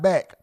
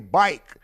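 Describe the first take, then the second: First: The vowel is a short 'a' sound. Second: The vowel is a long 'eye' sound. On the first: "not back"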